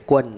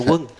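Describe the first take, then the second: First: The name begins with a g sound. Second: The name begins with a w sound. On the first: This is the Northern way of saying it. "if you're from North, they would say Guan" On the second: This is the Southern way of saying it. "the Southerners would pronounce it Wung"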